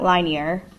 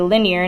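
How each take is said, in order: First: The first syllable sounds like 'line'. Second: The first syllable sounds like 'lin'. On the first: The speaker calls it wrong. "not linear, but line" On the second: The speaker calls it right. "we say linear"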